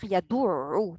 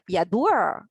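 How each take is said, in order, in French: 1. Les lèvres restent arrondies pendant le ayn. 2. Les lèvres s'étirent à nouveau pour le ayn. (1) "vous voulez le garder arrondi pour dire le ayn" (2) "elles vont revenir allonger pour le ayn"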